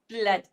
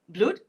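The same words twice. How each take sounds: First: The vowel sounds like a short 'uh'. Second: The vowel sounds like the one in 'good'. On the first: The speaker calls it right. "this word is actually pronounced as blood. B-l-a-d" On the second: The speaker calls it wrong. "you are used to words like good. So is it blood?"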